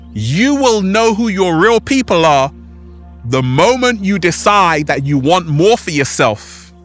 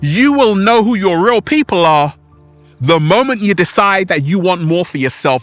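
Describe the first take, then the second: First: It is said slowly and deliberately. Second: It is said at normal speed.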